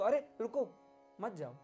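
The pause comes right after 'ruko'.

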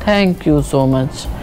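It sounds low and downcast. The speaker is unhappy. "एक sad tone आया"

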